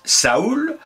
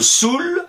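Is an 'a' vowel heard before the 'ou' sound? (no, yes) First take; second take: yes; no. First: An 'a' vowel is heard before the 'ou'. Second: No 'a' vowel is heard before the 'ou'. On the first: "certains disent Saoul" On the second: "d'autres Soul"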